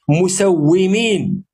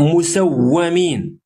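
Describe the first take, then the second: First: The vowel after the doubled w is i. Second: The vowel after the doubled w is a. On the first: The angels are the ones doing the marking. "اسم فاعل" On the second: The angels are the ones being marked. "وفي قراءة مسومين اسم مفعول"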